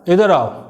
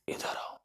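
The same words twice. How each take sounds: First: It is said loudly. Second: It is said very quietly. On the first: "तो ये आपका volume तेज है।" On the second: "अब आपको सुनाई नहीं दिया"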